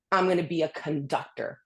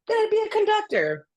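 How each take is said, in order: First: Said in the usual way. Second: High, sing-song, dreamy repeat; mock naive. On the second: Mocking her younger self's epiphany, high and sing-song. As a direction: toss it off like a starry-eyed kid.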